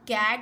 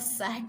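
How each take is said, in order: First: The word begins with a K sound. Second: The word begins with an S sound. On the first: The speaker calls it right. "सी for कैट होता है" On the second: The speaker calls it wrong. "सी for सैट नहीं होता"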